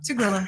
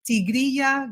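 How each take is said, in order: First: It is said with an American pronunciation. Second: It is said with a Spanish pronunciation. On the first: "the Americans just say, you know, Tigrilla because it's easier" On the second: "the name is actually in Spanish"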